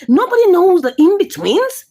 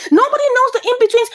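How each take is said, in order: First: Said in the usual way. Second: "Nobody knows the in-betweens" pitched much higher and rushed; "knows" pushed up high and fast; emphatic repeat. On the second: Shown as a demonstration. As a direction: hammer the point home the second time. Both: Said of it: "repeated emphatically".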